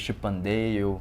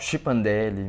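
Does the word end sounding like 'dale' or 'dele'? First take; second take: dale; dele. First: The word ends with a 'dale' sound. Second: The word ends with a 'dele' sound. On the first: This is probably the correct pronunciation. The speaker calls it right. "a pronúncia certa talvez seja chipandale" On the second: This is how the speaker habitually says it. The speaker calls it wrong. "eu falo chipandele"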